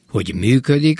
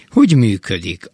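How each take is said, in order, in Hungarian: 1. A hogy hangsúlytalan, a működik hangsúlyos. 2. A hangsúly a hogy szón van. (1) "a hangsúlytalan, hogy működik, az csak kötőszó" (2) "a hangsúlyos hogy működik, az hogyan értékű"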